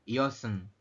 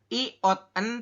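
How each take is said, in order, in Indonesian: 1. Konsonan akhir terbawa ke suku kata berikutnya. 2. Konsonan akhir dipisah dari suku kata berikutnya. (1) "tetapi dibacanya adalah iosen" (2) "bukan iot en"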